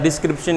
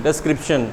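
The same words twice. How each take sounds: First: डिस्क्रिप्शन said as "dis-kripshan", first vowel a short i; the wrong way, डिस्क्रिप्शन with an i sound; wrong pronunciation. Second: डिस्क्रिप्शन said as "des-kripshan", first vowel an e; the right way, डिस्क्रिप्शन opening on e; correct pronunciation. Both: Shown as a demonstration. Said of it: "ई आना चाहिए".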